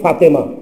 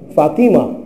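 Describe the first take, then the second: First: The second vowel sounds like 'e'. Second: The second vowel sounds like 'i'. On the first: The speaker calls it wrong. "মেয়েদের নাম আমরা রাখি" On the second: The speaker calls it right. "সঠিক উচ্চারণ হচ্ছে"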